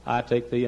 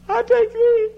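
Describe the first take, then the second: First: Said in the usual way. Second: Very high, loud imitated bridal wail; hammed-up tearful bride; mock crying vow. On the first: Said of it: "I said, Would you say". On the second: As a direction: squeal it as if bursting into tears. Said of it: "or because you cry".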